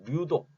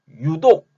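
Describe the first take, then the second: First: The word begins with an L sound. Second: The word begins with a plain Y sound. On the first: The speaker calls it wrong. "류독이라고는 안 하죠" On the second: The speaker calls it right. "유독 할 때는"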